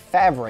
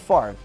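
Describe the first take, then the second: First: The r sound comes after the v. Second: The r sound comes before the v. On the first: It is read the way it is spelled. The speaker calls it wrong. "Sounds like Favre if you're looking at it" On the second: It is the name's real pronunciation. The speaker calls it right. "But no, it's Favre"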